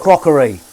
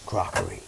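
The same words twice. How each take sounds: First: Playful shout. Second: Said in the usual way. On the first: Pretend. Washing up, calling out the crockery loudly.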